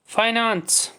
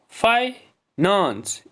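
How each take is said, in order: First: Said in the usual way. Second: "finance" slow, split as फाइ, नेंस; long pause in "finance" after फाइ; syllable by syllable. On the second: Shown as a demonstration. Teacher splitting the next word for pupils, syllable by syllable. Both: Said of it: "इसमें भी दो syllable हैं".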